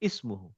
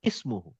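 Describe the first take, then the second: No difference in how they are said.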